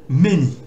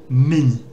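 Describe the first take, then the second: Both takes have the same delivery.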